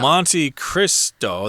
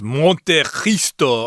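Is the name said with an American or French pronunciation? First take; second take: American; French. First: It is pronounced the American English way. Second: It is pronounced the French way. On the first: "we're just going to say Monte Cristo. That's how we say it in America" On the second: "if you pronounce this in French, it's Monte Cristo or something like that"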